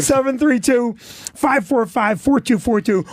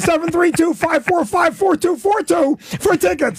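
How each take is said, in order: First: Slow, measured phone number. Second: High, frantic phone-number plug; rapid-fire shouted number. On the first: Real, not acted. Comic repeats the club's number for listeners, slowly. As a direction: read out the digits slowly, with pauses between groups. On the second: Acted. Comic plugging his club tickets, frantic high shout. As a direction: rattle off the digits in a high yell. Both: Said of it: "Say it again, slow".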